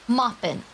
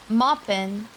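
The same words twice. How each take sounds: First: Moppin' with a falling end, two syllables; Moppin' dropping in pitch; child's word. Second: Moppin' lifted at the end; child's word. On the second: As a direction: say Moppin' as a lilting call, rising. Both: Retold or imitated. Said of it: "That's how she said it".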